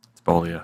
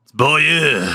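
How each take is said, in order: First: Beaulieu as anglicized "BOH-lee-oh", low; low, casual "BOH-lee-oh" for Beaulieu; wrong pronunciation. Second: Beaulieu as "bol-YEUH", pitched up; higher, exaggerated French "yeuh" ending on Beaulieu; French-style pronunciation. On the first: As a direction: say Beaulieu with three English syllables, boh-lee-oh. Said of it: "No, it's not". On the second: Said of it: "You gotta have the, uh, in there". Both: Shown as a demonstration.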